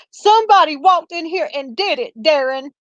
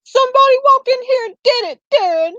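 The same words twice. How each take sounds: First: Sarcastic. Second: Mocking imitation pitched much higher; sarcastic. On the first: Retold or imitated. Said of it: "kinda sarcastically". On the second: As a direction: toss it back at the husband in a high, mocking voice. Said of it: "like, sarcastically".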